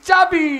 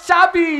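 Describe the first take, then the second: No difference in how they are said.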